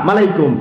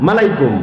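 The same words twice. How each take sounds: Both takes have the same delivery.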